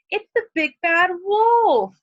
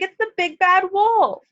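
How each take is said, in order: First: High, loud, slow warning about the wolf; frightened exclamation. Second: High, alarmed cry about the wolf; panic, like a little pig spotting danger; frightened piglet. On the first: Shown as a demonstration. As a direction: sound the alarm like a scared piglet. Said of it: "more power to it". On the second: Acted. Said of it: "cried the little pig".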